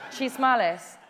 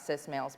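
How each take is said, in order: First: It begins with a ch sound. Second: It begins with an s sound.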